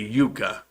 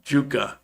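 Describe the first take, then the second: First: The word begins with a Y sound. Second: The word begins with a J sound. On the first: This is how it is said elsewhere. "in other places it would be Yucca" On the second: This is how it is said locally. "here the Y is pronounced like a J"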